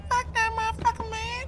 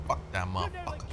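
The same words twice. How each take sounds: First: Very high falsetto cursing; squeaky put-on voice. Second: Low, quiet grumbled curse; low grumble. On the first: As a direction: repeat the curse in a comic squeak. Repeats curse in squeaky put-on voice. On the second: Real, not acted. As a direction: grumble it low and soft to yourself. First take, muttered before squeaky repeat.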